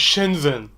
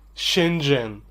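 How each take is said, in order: First: The middle consonant is a z sound. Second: The middle consonant is a j sound. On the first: The speaker calls it wrong. "مش شينزن" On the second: The speaker calls it right. "اسمها شينجن مش شينزن"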